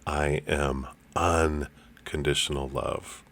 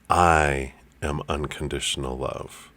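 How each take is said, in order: First: The word "unconditional" is stressed. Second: The word "I" is stressed.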